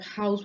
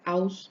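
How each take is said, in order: First: The word begins with an H sound. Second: The word begins directly with a vowel. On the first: "Instead of house" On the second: "we'd have house"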